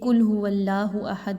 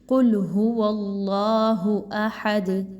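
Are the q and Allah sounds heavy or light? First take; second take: light; heavy. First: The q and Allah sounds are thin and light. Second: The q and Allah sounds are full and heavy. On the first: The speaker calls it wrong. "बारीक नहीं पढ़ना" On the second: The speaker calls it right. "मोटा पढ़ा जाएगा"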